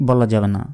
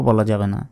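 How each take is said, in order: No difference in how they are said.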